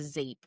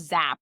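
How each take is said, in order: First: The vowel sounds like the one in cape. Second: The vowel sounds like the one in cap. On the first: The speaker calls it wrong. "It's not a zape" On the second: The speaker calls it right. "it's a zap, right?"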